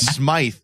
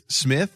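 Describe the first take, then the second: First: Smythe with a long "eye" vowel; loud, higher Smythe, rhyming with scythe; mock mispronunciation. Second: Said in the usual way. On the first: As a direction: botch the name as Smythe, long i. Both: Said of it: "some ethnic name at him".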